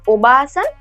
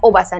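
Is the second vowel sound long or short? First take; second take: long; short. First: The vowel after 'ob' is held long. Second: The vowel after 'ob' is short. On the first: The speaker calls it right. "Long वाला है तो आपको थोड़ा long pronounce करना पड़ेगा" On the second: The speaker calls it wrong. "ये नहीं है"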